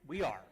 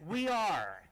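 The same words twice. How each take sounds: First: It is said at a normal, quiet volume. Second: It is said loudly.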